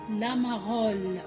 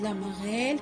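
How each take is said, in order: First: The last syllable sounds like 'ol'. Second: The last syllable sounds like 'el'. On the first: The speaker calls it wrong. "pas la marole. On dit pas ol" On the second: The speaker calls it right. "on dit la marelle"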